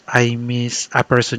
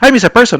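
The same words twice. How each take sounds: First: The phrase is said slowly and drawn out. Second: The phrase is said quickly and briskly. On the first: The speaker calls it right. "you recall it slowly" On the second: The speaker calls it wrong. "that's the opposite"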